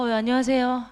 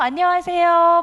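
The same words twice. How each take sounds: First: It is said in a dull, gloomy tone. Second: It is said in a bright, cheerful tone.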